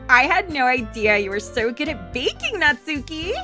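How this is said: It is said in a valley girl voice.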